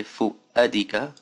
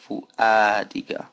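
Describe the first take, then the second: First: Fu'adika said slowly with a short uh; clipped fu'adika vowel; wrong version of fu'adika. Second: Fu'adika said slowly with open ah vowels; right version of fu'adika. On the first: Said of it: "I didn't say". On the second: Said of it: "I said". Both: Shown as a demonstration.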